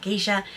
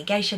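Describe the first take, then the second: First: "geisha" said as GEE-sha; rejected pronunciation. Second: "geisha" said as GAY-sha; corrected pronunciation. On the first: Vlogger quoting her slip, "geisha" pronounced GEE-sha. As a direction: say "geisha" with a long EE in the first syllable. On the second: Vlogger correcting herself on a word, "geisha" pronounced GAY-sha. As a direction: say "geisha" with an AY in the first syllable. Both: Shown as a demonstration. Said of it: "I need to say geisha, not geisha".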